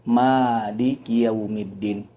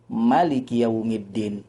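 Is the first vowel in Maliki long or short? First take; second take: long; short. First: The first vowel of Maliki is long. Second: The first vowel of Maliki is short. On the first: "menggunakan alif setelah mim" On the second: "dengan meniadakan alif setelah huruf mim"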